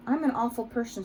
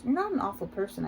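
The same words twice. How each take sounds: First: Mildly tearful, higher pitch; understated narrated weepy voice; through tears. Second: Gentle, mild contradiction; understated soft comfort; said softly. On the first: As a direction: confess with a touch of tears. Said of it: "she says through her tears". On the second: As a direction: reassure with a touch of softness. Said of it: "I say softly". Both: A narrator's reading.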